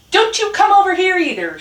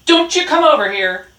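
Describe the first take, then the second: First: High, loud shouted retort; shouting. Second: Loud, raised warning; barked shout. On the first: Rat answers Dog across the junkyard, shouting high. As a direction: shout back, pitched above the bark. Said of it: "shouted Rat". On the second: Dog warns Rat to stay away, barking loudly. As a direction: bark a warning across the yard. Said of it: "barked Dog". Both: A narrator's reading.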